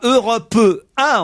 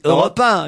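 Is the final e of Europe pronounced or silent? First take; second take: pronounced; silent. First: The final e of Europe is pronounced. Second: The final e of Europe is silent. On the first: The speaker calls it wrong. "on ne dit pas" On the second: The speaker calls it right. "on dit"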